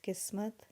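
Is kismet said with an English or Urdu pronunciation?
Urdu. It is said with an Urdu pronunciation. The speaker calls it right. "that's the Urdu pronunciation"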